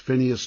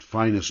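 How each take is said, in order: First: The name is said the way it is spelled. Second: The name is said in a shortened form. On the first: This is the name as written. "when you read his name" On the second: This is how people in the jazz world say it. "That's how they pronounced it"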